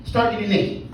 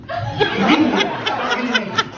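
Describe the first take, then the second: First: Said in the usual way. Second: Slow high incredulous "Start getting naked"; slow drawn-out repeat. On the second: Shown as a demonstration.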